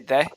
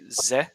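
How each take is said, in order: First: The word begins with a th sound. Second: The word begins with a z sound. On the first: The speaker calls it right. "when you say the" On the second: The speaker calls it wrong. "you pronounce th like a z"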